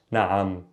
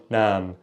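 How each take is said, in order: First: "naam" lower, broken in two by the ayn. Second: "naam" as a single unbroken vowel; one syllable. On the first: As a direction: split "naam" into na and am. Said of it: "change in the tone". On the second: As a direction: say "naam" in one beat, no ayn. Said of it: "it's just kinda one naam". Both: Shown as a demonstration.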